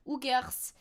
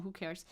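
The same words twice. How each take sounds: First: "who cares" in a mock European accent; put-on foreign accent. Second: Said in the usual way.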